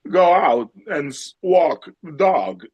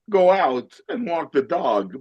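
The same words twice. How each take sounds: First: It is said slowly with stretched, wavering words. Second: It is said in a mellow folksy radio voice. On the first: "then you slow it down with these like like a waveform" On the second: "and then with the prairie home"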